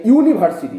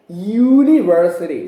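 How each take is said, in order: First: "university" said with a plain vowel start, as in India; Indian-style "university", oo-niversity; Indian pronunciation of university. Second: "university" starting with a clear Y glide, you-niversity; "university" said as yoo-niversity; correct pronunciation. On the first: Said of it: "as people in India say". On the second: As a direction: push "university" out from the throat with a Y sound. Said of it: "No, it's not univer-, it's university". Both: Shown as a demonstration.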